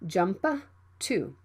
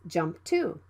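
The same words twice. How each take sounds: First: The P is released with a puff. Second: The P is held without release. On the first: The speaker calls it wrong. "Don't say jump to" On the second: The speaker calls it right. "it can be unreleased"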